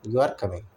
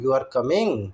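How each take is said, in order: First: "You are coming" low-key, dropping at the end; level intonation. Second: "You are coming" with "coming" swung upward; rising intonation. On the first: Teacher repeats the contrast, "You are coming" as a settled statement. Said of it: "एक में हमारी, ए, बराबर रह रही है". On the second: Teacher repeats the contrast for learners, voice rising on "coming". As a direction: ask it through the tune, lifting "coming". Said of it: "एक में हमारी आवाज़ उठ रही है". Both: Shown as a demonstration.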